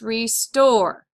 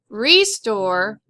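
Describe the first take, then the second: First: The stress is on the second syllable. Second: The stress is on the first syllable. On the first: The speaker calls it right. "we're going to accent this part of the word" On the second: The speaker calls it wrong. "Not restore"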